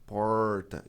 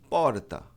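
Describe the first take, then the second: First: It has a strong retroflex caipira R. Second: It is said in a Mooca accent.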